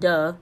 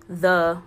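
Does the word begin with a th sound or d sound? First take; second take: d sound; th sound. First: The word begins with a d sound. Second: The word begins with a th sound. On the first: "I said it with a D. I said duh" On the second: "I didn't say the with a T-H"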